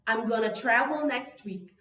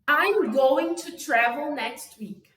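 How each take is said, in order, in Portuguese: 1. 'Going to' é pronunciado junto, como um 'gonna' curto. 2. 'Going to' é dito como duas palavras completas. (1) "botei gonna. Eu fiz essa, essa junção que fica muito mais falável" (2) "o going to"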